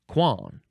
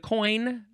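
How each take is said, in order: First: It sounds like kwan, with a nasal vowel. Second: It sounds like the English word coin. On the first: The speaker calls it right. "Pronounced quan" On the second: The speaker calls it wrong. "it looks like fleur de coin, but it is not pronounced that way"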